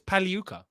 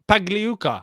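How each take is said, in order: First: The G in the name is silent. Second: The G in the name is pronounced.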